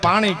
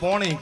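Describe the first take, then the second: First: The first vowel is an open aa sound. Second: The first vowel is a rounded o sound. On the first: This is how people in Saurashtra say it. "આપણે કાઠિયાવાડમાં સૌરાષ્ટ્રમાં રહી, અહીંયા આપણે આને પાણી કહી" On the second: This is how people in north Gujarat say it. "ઉત્તર ગુજરાતમાં પોણી કે"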